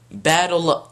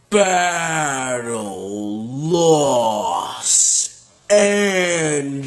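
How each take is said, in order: First: It is said in a normal, plain voice. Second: It is said in a deep, dramatic trailer voice.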